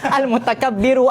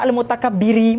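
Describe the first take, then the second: First: The word ends with an 'oo' vowel. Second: The word ends with an 'ee' vowel. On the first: The speaker calls it right. "hujungnya mesti semua sudah tu akan dengan dhamma" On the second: The speaker calls it wrong. "Dia tak boleh tiba-tiba Al-Mutakabbiri. Mana boleh"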